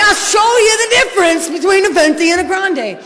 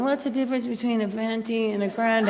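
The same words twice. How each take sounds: First: Shouted high and loud, laughing through it; angry retort. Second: A hint of a clueless customer, quiet and amused; mimicking the customer. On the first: Retold or imitated. Impatient addict yelling back at the Starbucks lady, laughing. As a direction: snap back at her like a furious customer. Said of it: "And I'm like". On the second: Mocking the Starbucks lady holding up the line, softly. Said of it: "and then she goes".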